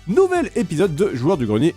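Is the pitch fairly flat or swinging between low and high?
swinging. The pitch drops low and jumps high suddenly. "des intonations dans les vidéos qui peuvent descendre bas et monter haut d'un seul coup"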